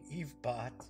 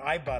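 First: The first syllable sounds like 'eve'. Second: The first syllable sounds like 'eye'. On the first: The speaker calls it wrong. "not Evebot" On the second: The speaker calls it right. "it's Ibot"

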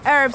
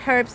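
First: The word begins with a vowel, no h sound. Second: The word begins with a clear h sound. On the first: "So herbs is American" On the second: "herbs is the British"

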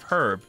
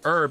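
First: The word starts with an h sound. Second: The word starts without an h sound. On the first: The speaker calls it right. "instead of herb" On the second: The speaker calls it wrong. "Nothing triggers me more than people saying herb"

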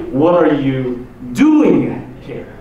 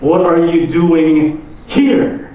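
First: The stress is on the word doing. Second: The stress is on the word here.

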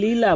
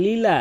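Both takes have the same delivery.

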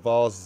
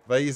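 First: The vowel rhymes with the vowel in Mars. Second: The vowel rhymes with the vowel in craze. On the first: "vase is in Mars" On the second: "Vase is in like craze"

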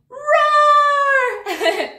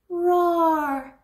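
First: It is said loudly. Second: It is said quietly.

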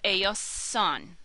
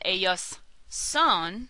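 First: The two words run together without a pause. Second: There is a break between the two words.

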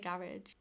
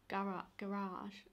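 First: Garage is pronounced in the usual way. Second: Garage is pronounced in an unfamiliar way. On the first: This is how the speaker normally says it. The speaker calls it right. "I say garage" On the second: This is not how the speaker normally says it. The speaker calls it wrong. "I don't even say it like that"

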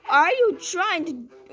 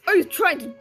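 First: It is said in his normal voice. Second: It is said in a put-on character voice.

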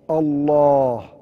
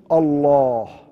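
No difference in how they are said.

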